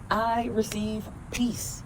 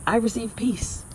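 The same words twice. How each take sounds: First: Slow and softer, savoring each word; slow, soft affirmation. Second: Said in the usual way. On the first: Shown as a demonstration. Affirmation for viewers, slow and soft. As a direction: let peace sink in, slowly and softly. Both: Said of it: "Repeat after me".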